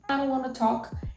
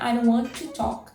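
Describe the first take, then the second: First: 'Want' and 'to' run together into 'wanna'. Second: 'Want' and 'to' are said as two separate words. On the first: This is the informal everyday spoken form. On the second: This is the formal grammatical form.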